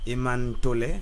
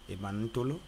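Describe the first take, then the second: First: The name is said short, as two parts. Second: The name is said long, as one run.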